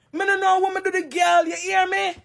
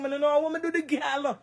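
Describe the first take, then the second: First: Higher, insistent repeat of the protest; upset protest. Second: Said in the usual way. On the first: Real, not acted. Woman insisting to viewers she did nothing, upset. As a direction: push it up high, demand to be heard.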